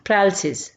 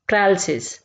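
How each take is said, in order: No difference in how they are said.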